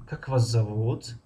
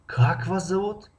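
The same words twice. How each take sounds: First: Slow, зовут stretched and lifted at the end; lingering rise on зовут; rising ending. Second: Как stretched and pitched high, the whole question raised; high-pitched question leaning on Как; stress on the first word. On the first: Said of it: "интонатсионная конструкция се мешавад". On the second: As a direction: start high on a long Как. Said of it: "аввали ҷумларо мо баланд талаффуз". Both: Shown as a demonstration.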